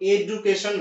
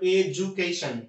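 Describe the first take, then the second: First: The middle consonant is a plain D sound. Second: The middle consonant is a J sound. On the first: The speaker calls it wrong. "যেমন এডুকেশন না" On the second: The speaker calls it right. "It's not ডি, এটা হচ্ছে বর্গীয় জয়ের মতো"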